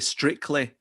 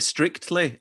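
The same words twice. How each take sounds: First: The second T sound is left out. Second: The second T sound is clearly pronounced.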